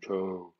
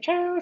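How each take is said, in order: First: It is said in a put-on mountain voice. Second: It is said in a put-on flower voice. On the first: A mountain is speaking. "se parla una montagna, sarò il montagno" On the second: A flower is speaking. "Se parla un fiore"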